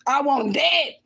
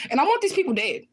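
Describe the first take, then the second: First: "dead" hit hard and drawn out; stress on DEAD. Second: Raised pitch, vehement; angry declaration. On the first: Repeating her wish to viewers, "dead" hit hard. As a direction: punch the word "dead", real anger. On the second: Telling viewers what she wants for her kidnappers, angry. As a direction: state it with real anger. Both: Real, not acted.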